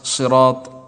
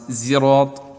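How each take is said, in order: First: The first consonant is a pure emphatic s. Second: The first consonant is a pure z sound. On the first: "صاد خالص" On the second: "بزاي خالص"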